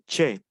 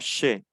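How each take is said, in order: First: It starts with a hard 'ch' sound. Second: It starts with a soft 'sh' sound. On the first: The speaker calls it wrong. "Ya no va a ser che" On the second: The speaker calls it right. "Suena como los argentinos pronuncian che"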